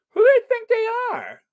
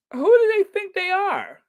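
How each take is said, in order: First: High, fast put-on outrage; mock indignant squeal. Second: High, louder put-on outrage; hammed-up indignant squeak; mock indignant squeal. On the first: Squealing mock outrage at the gala organisers. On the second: Repeating mock outrage while waiting for a tote bag.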